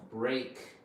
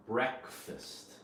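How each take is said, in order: First: Full long vowel on Break; word by itself. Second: Breakfast with short E, BREK-fist; breakfast as one word, reduced second syllable; combined word. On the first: Teacher showing the difference for learners, Break by itself. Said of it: "Notice the difference. This is by itself". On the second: Teacher showing the difference for learners, combined-word pronunciation. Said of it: "Notice the difference". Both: Shown as a demonstration.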